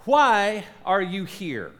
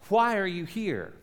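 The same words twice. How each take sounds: First: WHY stressed, slow and deliberate; slow weighty question. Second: Said in the usual way. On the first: Shown as a demonstration. Pastor asking the congregation, slow with stress on why. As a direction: lean on why, slowly. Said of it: "Let me ask you a question". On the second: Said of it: "come back to my original question".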